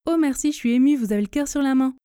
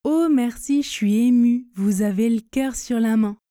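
First: Fast, relaxed French among friends; rapid colloquial contracted delivery; express speed. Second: Careful pace with spoken contractions; measured demo of casual contracted French; tortoise speed. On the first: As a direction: rattle it off with "je suis" as "chui", "le" as "l". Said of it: "puis à la vitesse express". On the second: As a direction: say it unhurriedly, "je suis" as "chui", "le" as "l". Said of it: "une fois à la vitesse tortue". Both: Shown as a demonstration.

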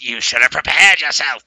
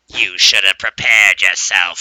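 First: Louder, harder threat; more emphatic. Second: Slow, loud, menacing voice; spooky warning. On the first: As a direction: punch it out with more force. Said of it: "but this time more emphatic". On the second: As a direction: loom over him with a slow threat. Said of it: "And I hear". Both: Retold or imitated.

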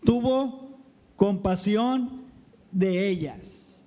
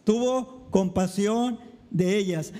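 First: Tuvo compasión said slowly, each word weighed; slow emphatic reading. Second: Said in the usual way. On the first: Shown as a demonstration. (lectura lenta y enfática)

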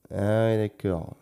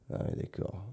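First: Said in the usual way. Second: Whispered to himself. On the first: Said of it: "repeated slowly aloud". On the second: Real, not acted. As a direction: breathe it, no voice. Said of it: "whispered first take".

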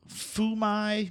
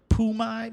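First: Fu mai said high in pitch, in a Chinese tone; Chinese phrase. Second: Pu mai said high and a little louder, in a Chinese tone; Chinese phrase. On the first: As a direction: sound out Fu mai as a Mandarin phrase. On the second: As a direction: punch out Pu mai as a Mandarin phrase. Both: Shown as a demonstration. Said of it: "I'm paraphrasing here the words".

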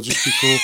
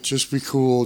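First: Much higher, laughing through it; laughing mock shout of just be cool; laughing squeal. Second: Said in the usual way. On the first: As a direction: crack up on the second just be cool. Batu quoted, laughing.

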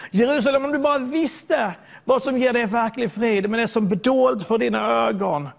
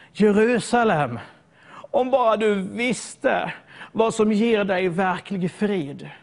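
First: Crying out. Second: Mournful plea. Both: Retold or imitated. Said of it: "han börjar ropa".

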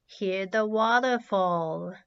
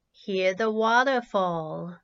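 No difference in how they are said.

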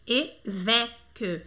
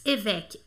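First: Évêque broken slowly into syllables, the middle E wide open. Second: Said in the usual way. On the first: Shown as a demonstration. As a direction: dwell on the open second vowel of "évêque". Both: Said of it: "tem esse som aberto".

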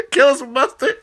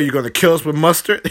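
First: Higher, giggling repeat; can't stop laughing at the joke; cracking up. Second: Fast and laughing through it; mock him while cracking up; laughing mockery. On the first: Real, not acted. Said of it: "I cracked myself up". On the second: Mocking the hamburger, laughing.

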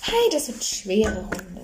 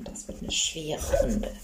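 First: Said in the usual way. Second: Slow whispered repeat; whispering. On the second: Pretend. Repeats line, then whispers it.

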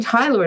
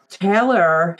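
First: Tyler said as TIE-ler, with an "eye" sound; mispronounced as Tyler. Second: Taylor said as TAY-lor, with an "ay" sound; correct name Taylor. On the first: Retold or imitated. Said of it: "he kept saying Tyler". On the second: Shown as a demonstration. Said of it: "had such a heavy accent".

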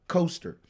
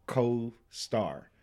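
First: "coaster" run together as one word; misheard pronunciation. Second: "co-star" slow, in two separate words; careful pronunciation. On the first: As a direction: blend "co-star" into "coaster". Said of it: "You said that pretty fast". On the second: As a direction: say "co-star" with a gap after "co". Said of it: "We just used the word". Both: Shown as a demonstration.

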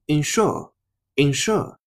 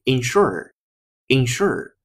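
First: Ensure slow, no r at the end; 英式发音的ensure，放慢; British ensure. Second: Ensure with an r-colored ending; 美式发音，结尾带儿化音; American ensure. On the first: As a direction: draw out ensure, ending open without r. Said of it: "英音". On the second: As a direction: ensure finished on a curled r sound. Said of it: "美音在结尾加儿化音". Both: Shown as a demonstration.

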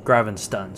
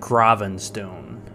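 First: "Gravenstun" with a short "stun" ending; "Gravenstun" with a short, unstressed last vowel; corrected pronunciation. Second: "Gravenstone" drawn out with a long "stone" ending; mistaken pronunciation. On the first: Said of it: "Like Gravestun". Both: Shown as a demonstration.

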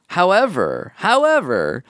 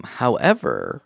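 First: "however" pitched high and swooping down; emphatic HOWEVER. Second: Said in the usual way. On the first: Acted. Letter writer introducing a twist, high emphatic "however". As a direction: hit "however" higher for a dramatic turn. Letter's word repeated for dramatic build.

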